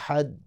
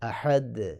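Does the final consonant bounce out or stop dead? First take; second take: stops dead; bounces out. First: The final d stops dead with no release. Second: The final d closes, then bounces out audibly. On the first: The speaker calls it wrong. "अगर आप यूँ करेंगे अहद आवाज़ बिल्कुल बंद रहे तो फिर तो ठीक नहीं है" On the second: The speaker calls it right. "आवाज़ बंद होगी लेकिन फिर ज़ाहिर होगी"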